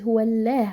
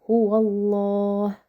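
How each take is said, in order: First: The L in Allah sounds light and thin. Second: The L in Allah sounds heavy and full. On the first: The speaker calls it wrong. "We never say someone says huwa Allah, right? La is a light sound, which is not applied here" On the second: The speaker calls it right. "So it's gonna be huwa Allah"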